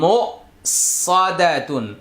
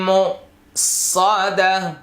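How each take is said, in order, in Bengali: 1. শব্দটি পূর্ণ 'tun' উচ্চারণে শেষ হয়। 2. শব্দটি নরম 'h' উচ্চারণে শেষ হয়।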